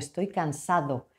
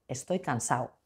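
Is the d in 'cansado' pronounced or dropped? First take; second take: pronounced; dropped. First: The d in cansado is pronounced. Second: The d in cansado is dropped. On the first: "alguien de Castilla, que yo soy de Castilla, diría" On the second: "no pronuncian la D"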